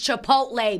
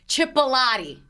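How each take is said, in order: First: The word is said with its usual syllables. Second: The word is said with added extra syllables. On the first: The speaker calls it right. "I know it's Chipotle" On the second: The speaker calls it wrong. "you adding in like three extra syllables"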